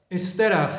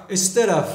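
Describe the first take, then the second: Both takes have the same delivery.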